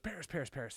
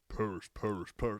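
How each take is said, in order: First: It is said in a normal voice. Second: It is said in a deep demonic voice.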